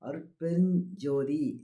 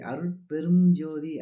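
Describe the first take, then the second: First: An nj sound comes before jothi. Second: An m sound comes before jothi. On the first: The speaker calls it right. "அருட்பெருஞ் இஞ்ச் வரணும்" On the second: The speaker calls it wrong. "கொஞ்சம் ஸ்பீடா சொல்லும்போது ... அப்படி சொல்லக்கூடாது"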